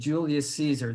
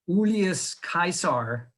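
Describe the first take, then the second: First: Caesar begins with a soft S sound. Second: Caesar begins with a hard K sound. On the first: This is the later, familiar pronunciation. "instead of" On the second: This is the historical Latin pronunciation. "that's how you would pronounce his name"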